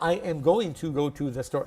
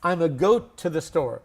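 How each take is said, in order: First: Every word is said fully and separately. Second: 'Going to' is reduced to just 'a'. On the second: "There's another way. A lot of people are saying it now"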